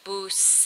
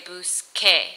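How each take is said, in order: First: The consonant before the final vowel sounds like s. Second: The consonant before the final vowel sounds like k. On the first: The speaker calls it wrong. "Instead of saying buse" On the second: The speaker calls it right. "we want to say buske"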